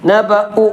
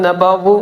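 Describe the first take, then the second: First: The middle consonant is a glottal stop. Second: The middle consonant is a w sound. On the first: The speaker calls it right. "അത് ഹംസയാണ്" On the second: The speaker calls it wrong. "നബവു വാവല്ലത്"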